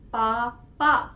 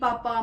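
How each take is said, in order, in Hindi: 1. दोनों अक्षर रुककर, अलग-अलग बोले जाते हैं। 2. दोनों अक्षर एक शब्द की तरह आपस में जुड़कर बोले जाते हैं। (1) "इस तरह से" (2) "ऐसा नहीं है कि पापा, ... ऐसे नहीं"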